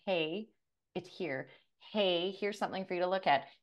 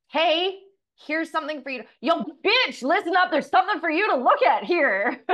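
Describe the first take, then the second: First: Hushed, much softer nudging voice; soft whisper. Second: High, loud hammed-up shout; mock yell. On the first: Pretend. The universe gently nudging you, soft hushed voice. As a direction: coax gently, barely above a breath. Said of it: "the universe typically comes in whispering at you". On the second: The universe losing patience with you, loud high mock yell. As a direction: bark it like a rude drill sergeant. The universe now yelling at her.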